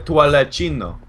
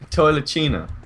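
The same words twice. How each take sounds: First: It is said in a put-on foreign accent. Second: It is said in a plain, ordinary accent.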